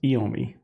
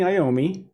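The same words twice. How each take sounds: First: The name is said with an Italian-style pronunciation. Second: The name is said with an English-style pronunciation. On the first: This is how it would be said in Italian. "my Italian is telling me it should be pronounced Iommi" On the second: This is how most people say it. "which I think is how people pronounce it"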